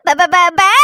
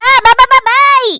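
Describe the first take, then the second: First: Put-on whimpering baby syllables; crying babble. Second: பா பா called out louder with a rising end; louder babble. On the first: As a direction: sob out பா பா like a baby. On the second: Acted. Louder babble after crying.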